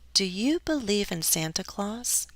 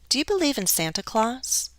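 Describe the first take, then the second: First: The question is said slowly, with some stress. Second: The question is said quickly, as in conversation. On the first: "slower, it might sound a little different" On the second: "If I go fast, um, in everyday conversation"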